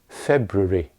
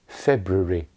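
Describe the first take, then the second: First: An unstressed syllable is reduced, British style. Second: The same.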